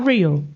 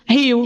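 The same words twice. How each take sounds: First: The R is said like an English R. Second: The R is said like an English H. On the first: The speaker wants foreigners to understand immediately. "Quando eu quero fazer que eles entendam logo de primeira" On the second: The speaker insists on the native pronunciation. "É Rio"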